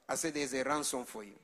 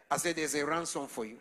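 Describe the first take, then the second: No difference in how they are said.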